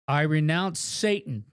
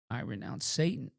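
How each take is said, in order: First: It is said loudly and forcefully. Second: It is said in a weak, squeaky voice.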